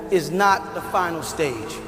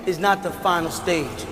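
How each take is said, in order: Both takes have the same delivery.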